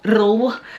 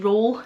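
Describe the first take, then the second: First: The R is rolled as a trill. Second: The R is a single quick tap. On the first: "we don't roll our R's" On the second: "we just tap our R's"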